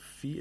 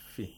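First: The vowel is held long. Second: The vowel is cut short. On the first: The speaker calls it wrong. "instead of fi" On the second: The speaker calls it right. "it becomes fi"

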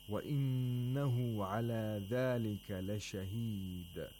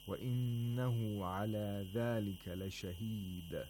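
No difference in how they are said.

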